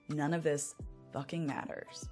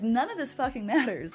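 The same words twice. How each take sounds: First: It sounds heavy and despairing. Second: It sounds light and delighted. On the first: Nothing is worth anything. "I always used to have this line on repeat in my brain" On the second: Life is free to be shaped however one wants. "except the tone has changed"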